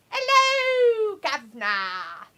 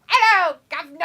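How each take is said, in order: First: Cockney greeting, hammed up; mock London accent. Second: High, loud Hello, governor with a laugh; cockney greeting, laughing; mock London accent. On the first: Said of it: "No one says hello, governors". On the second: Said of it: "you say it just like that".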